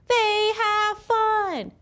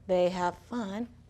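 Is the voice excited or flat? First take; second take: excited; flat. First: It is read in an excited, lively voice. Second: It is read in a flat, plain voice. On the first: The speaker calls it right. "I had to use an exciting voice" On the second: The speaker calls it wrong. "instead of saying"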